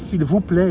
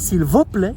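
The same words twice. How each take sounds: First: It is said with a plain local French accent. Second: It is said with a put-on Romanian accent. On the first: The speaker sounds like a local, not a foreigner. The speaker calls it wrong. "tu es d'ici, tu n'es pas étranger, tu n'es pas roumain" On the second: The speaker sounds like a Romanian foreigner. The speaker calls it right. "j'ai dû prendre des cours de roumain"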